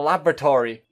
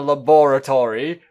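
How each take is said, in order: First: It is said in an American accent. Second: It is said in a British accent. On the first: "You're not American" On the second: "I'll say it like this"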